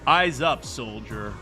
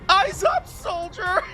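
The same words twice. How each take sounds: First: A generic, tough soldier voice is used. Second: A cute, distinctive character voice is used. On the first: It sounds corporate and generic. "he always sounds like this" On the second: It sounds unique to the character. "Ema come in and go"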